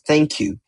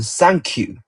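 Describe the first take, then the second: First: It is said with an English pronunciation. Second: It is said with a Japanese pronunciation. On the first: "In English, we pronounce it as thank you" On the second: "in Japanese, we pronounce in thank you"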